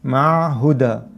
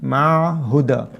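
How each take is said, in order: Both takes have the same delivery.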